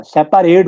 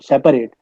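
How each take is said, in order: First: सेपरेट with a clear full "a" in the middle: sep-PAA-rate; spelling pronunciation. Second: Said in the usual way. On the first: Shown as a demonstration. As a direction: sound out the A in सेपरेट, not an E. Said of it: "ई नहीं होता". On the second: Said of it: "सेपरेट होता है word".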